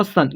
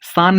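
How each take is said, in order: First: सन with a short a; correct short vowel. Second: सान with a long drawn aa; wrong long vowel. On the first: Teacher correcting the misreading, short-vowel सन. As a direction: keep the vowel in सन short, not aa. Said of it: "सान नहीं होता, सन". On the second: Teacher showing students the misreading, long-vowel सान. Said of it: "सान नहीं होता". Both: Shown as a demonstration.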